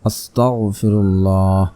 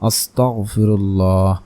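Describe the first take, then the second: Both takes have the same delivery.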